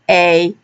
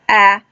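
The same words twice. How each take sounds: First: The vowel is long, like the letter name. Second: The vowel is short, as in 'at'. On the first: "now for the long A, we will use a" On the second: "the short vowel used was a"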